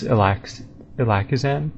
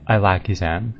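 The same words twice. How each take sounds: First: Ilakizan said "ih-LACK-ih-zan"; tentative "Ilakizan", first vowel as in "ill"; speaker's own reading. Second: Ilakizan said "eye-LACK-ee-zan"; "Ilakizan" starting like the word "eye"; official pronunciation. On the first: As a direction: read Ilakizan with a short "ih" opening. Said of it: "they pronounce it". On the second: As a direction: open Ilakizan with a long "eye". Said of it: "they pronounce it I". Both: Shown as a demonstration.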